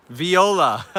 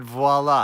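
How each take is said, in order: First: "Viola" said higher, as vee-OH-la; corrected name Viola. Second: "voila" said as vwa-LA; misread name voila. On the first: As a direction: correct yourself brightly to "Viola", with the vee sound first. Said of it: "I said voila. I just read that backwards". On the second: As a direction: repeat the slip "voila", starting with a vw sound. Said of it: "I just read that backwards". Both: Real, not acted.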